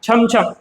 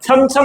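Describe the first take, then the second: First: It begins with a palatal 'chh' sound. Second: It begins with a dental 'tsh' sound. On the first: The speaker calls it right. "हा उच्चार य-युक्त आहे" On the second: The speaker calls it wrong. "म्हणत नाही आपण"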